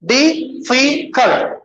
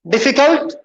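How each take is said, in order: First: difficult broken slowly as "डि … फि … cult"; split into syllables. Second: Said in the usual way. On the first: Shown as a demonstration. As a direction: count out three beats in difficult. (Difficult को धीरे, तीन हिस्सों में तोड़कर) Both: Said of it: "कितने हो गए".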